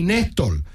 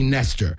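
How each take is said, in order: First: The name is said with a foreign accent. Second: The name is said in plain English pronunciation. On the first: "It's like a fucking accented version of Nestor" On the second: "she's never called me Nestor"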